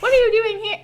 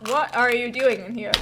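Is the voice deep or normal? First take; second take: normal; deep. First: It is said in a normal voice. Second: It is said in a deeper voice.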